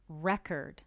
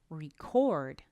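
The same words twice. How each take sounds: First: The stress is on the first syllable. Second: The stress is on the second syllable. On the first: It names a thing. "Record is a noun. The stress is at the beginning" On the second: It names an action. "record is a verb. The stress is at the end"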